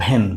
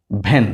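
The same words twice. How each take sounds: First: ভ্যান begun on ভ; ভ্যান demo; van with ভ. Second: ভ্যান repeated, lower in pitch; repeated ভ্যান demo; van with ভ, lower. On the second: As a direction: say ভ্যান again, dropping low. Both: Shown as a demonstration. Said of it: "বি এর উচ্চারণ কার মতো উচ্চারিত হয়েছে? ভ".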